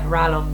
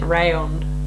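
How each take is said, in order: First: The double L sounds like an L. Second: The double L sounds like a Y. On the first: This is the English reading of the name. "Rallon because I'm English and that's how it works in my brain" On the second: This follows the double-L spelling rule some people use. "some people pronounce it Rayon, but because it's double L"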